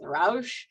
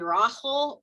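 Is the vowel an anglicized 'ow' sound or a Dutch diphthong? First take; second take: anglicized 'ow'; Dutch diphthong. First: The vowel is an anglicized 'ow' sound. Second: The vowel is attempted as the Dutch diphthong. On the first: It is easier for non-Dutch speakers to say. The speaker calls it wrong. "I usually go with" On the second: It is the technically correct Dutch form. The speaker calls it right. "technically it should be"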